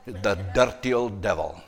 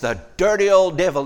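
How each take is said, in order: First: It is said in a Scottish accent. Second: It is said in the speaker's ordinary accent.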